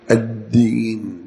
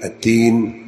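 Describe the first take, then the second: First: الدين slow with a held د; ad-deen with a clear d in الدين; geminated د in الدين; voiced doubled dal. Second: التين with a voiceless ت; wrong at-teen in place of ad-deen; ta for dal. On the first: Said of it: "الدين بالدال". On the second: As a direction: clear t in التين. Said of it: "لا تقول". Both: Shown as a demonstration.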